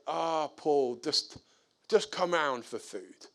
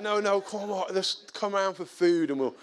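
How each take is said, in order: First: Soft-edged, easy offer at everyday pitch; mild, hesitant coaxing; gentle invitation. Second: Higher, urging repeat invitation; retold persuasion, pitch lifted; insistent coaxing. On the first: Retold or imitated. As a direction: invite him round kindly, without pushing. First, gentle invitation to neighbour. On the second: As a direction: talk him round after a refusal. Insisting after he refused.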